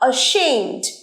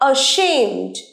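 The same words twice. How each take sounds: First: The first vowel is an open 'ah' sound. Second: The same.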